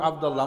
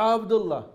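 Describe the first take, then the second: First: আবদুল্লাহ with a long, doubled ল্লা, the Arab way; Arabic pronunciation. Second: আবদুল্লাহ short, with no stretch on ল্লা, the Bengali way; Bengali pronunciation. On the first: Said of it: "আরবরা বলে". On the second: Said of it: "আমরা বলি". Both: Shown as a demonstration.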